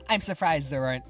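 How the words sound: The voice is pitched high and feminine. The speaker calls it wrong. "The estrogen levels in my vocal cords were a little high there"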